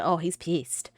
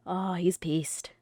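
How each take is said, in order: First: Said in the usual way. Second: Oh, he's pissed whispered slowly; slow stage whisper of the aside. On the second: Shown as a demonstration. Whispering to chat about the angry character.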